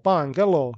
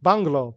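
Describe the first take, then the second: First: "bungalow" drawn out in three beats; split into syllables. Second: Said in the usual way. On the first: Shown as a demonstration. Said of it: "سه تا". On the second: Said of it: "How many syllables are there".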